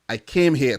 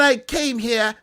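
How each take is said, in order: First: The voice is deep, with added bass. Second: The voice is light, without much bass. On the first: The speaker calls it right. "let me put some bass in my voice" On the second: The speaker calls it wrong. "I need to stop talking like I came here"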